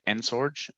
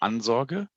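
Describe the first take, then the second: First: The name is pronounced with English sounds. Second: The name is pronounced with German sounds. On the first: "In English, I always say" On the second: "in German it would be"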